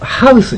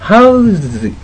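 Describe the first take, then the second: First: The consonant after the vowel is a hissing s. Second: The consonant after the vowel is a buzzing z. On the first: It is the noun meaning buildings. The speaker calls it wrong. "ハウスじゃなくて" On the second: It is the verb meaning to accommodate. The speaker calls it right. "ハウズ、ハウスじゃなくて"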